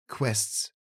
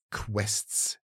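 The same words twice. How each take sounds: First: Said in the usual way. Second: Hushed echo of QUESTS; echo in the head. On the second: A narrator's reading. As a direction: let QUESTS linger as a half-voiced thought. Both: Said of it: "klang es in seinem Kopf nach".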